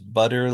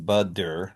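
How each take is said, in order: First: The middle consonant is a quick tongue flap. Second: The middle consonant is a full D stop. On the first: "all of those have a voiced sound and might sound like a D to you" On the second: "I'm not saying budder"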